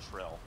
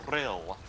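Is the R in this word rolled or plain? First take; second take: plain; rolled. First: The R is said as a plain English R. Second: The R is rolled with a trill.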